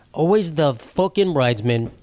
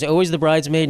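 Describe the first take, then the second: First: "Always the fucking bridesmaid" dragged out slowly, each word leaned on; slow emphatic repeat. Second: Said in the usual way. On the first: Shown as a demonstration. Joking to viewers about never being remembered, slow emphatic repeat.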